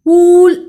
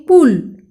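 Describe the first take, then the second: First: पुल said wrongly as पूल, with a long drawn ऊ; wrong long vowel. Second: पुल said correctly with a short, quick उ; short vowel. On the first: Teacher shows children the wrong way: पुल with a long ऊ. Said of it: "पुल ऐसा किया क्या मैंने?". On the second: Teacher shows children the right way: पुल with a short उ. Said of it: "ऐसे उच्चार किया". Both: Shown as a demonstration.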